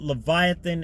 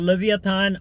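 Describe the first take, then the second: First: It is said the modern English way. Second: It is not said the modern English way.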